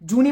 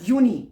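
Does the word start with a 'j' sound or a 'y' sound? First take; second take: j sound; y sound. First: The word begins with a 'j' sound. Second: The word begins with a 'y' sound. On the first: The speaker calls it wrong. "जूनी मत पढ़ देना" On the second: The speaker calls it right. "जे की sound वाई pronounce होती है"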